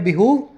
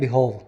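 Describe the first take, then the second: First: It is said in an American accent. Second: It is said in a British accent. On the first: "American बोलते हैं बिहूव" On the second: "England वाले बोलते हैं बिहोव"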